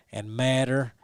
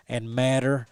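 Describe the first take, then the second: No difference in how they are said.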